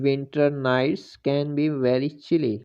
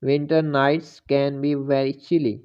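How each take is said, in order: Both takes have the same delivery.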